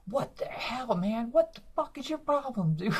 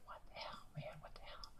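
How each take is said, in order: First: High, exploding what the hell; shrieking disbelief, losing it; retold freakout. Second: Breathy whispered what the hell; hushed, disbelieving whisper; mock whisper. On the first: Comic freaking out at a heckler, high and furious. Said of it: "break character". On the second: Comic whispering to himself in disbelief. Whispered retold outburst on stage.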